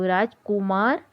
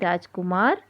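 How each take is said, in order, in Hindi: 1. 'उ' स्वर को खींचकर लंबा बोला जाता है। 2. 'उ' स्वर को छोटा और जल्दी बोला जाता है। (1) "राजकुमार गलत शब्द है" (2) "जो कि जल्दी बोला जाता है वह सही शब्द है"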